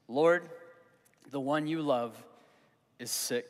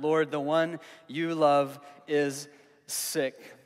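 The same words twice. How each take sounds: First: Said in the usual way. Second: Each word of "Lord, the one you love is sick" drawn out slowly with space between them; slow emphatic Scripture reading; slow, weighty reading. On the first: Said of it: "If you have your Bible, you wanna underline that". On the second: Shown as a demonstration. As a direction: lean on "Lord" and let the line land slowly. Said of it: "And so underline that".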